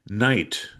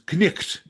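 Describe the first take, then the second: First: It is said with modern English pronunciation. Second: It is said with an older, historical pronunciation.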